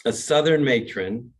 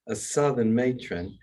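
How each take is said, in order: First: Said in the usual way. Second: Southern accent. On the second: Shown as a demonstration.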